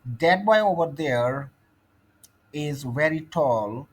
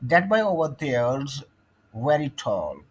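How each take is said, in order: First: The words 'there is' are said in full. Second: The words 'there is' are contracted to 'there's'.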